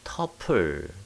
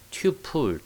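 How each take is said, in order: First: The first syllable is said like 'tuh'. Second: The first syllable is said like 'tyoo'. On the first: "미국 사람들은 터플 이렇게 발음하는 경향이 더 많아요" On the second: "튜플 또는 터플 뭐 이렇게 어, 발음합니다"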